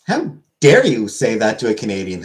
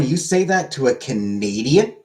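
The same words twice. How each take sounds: First: Mock outrage. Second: Slow, drawn-out mock disbelief, rising at the end; mock indignation. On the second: Streamer to chat, defending Canadians with mock indignation. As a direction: stretch it out as if scandalised. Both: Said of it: "I am offended".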